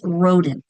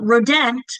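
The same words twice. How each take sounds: First: The second syllable has a reduced schwa vowel. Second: The second syllable has a full, clear vowel. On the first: The speaker calls it right. "you're usually going to hear that schwa in that second syllable" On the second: The speaker calls it wrong. "It's not rodent"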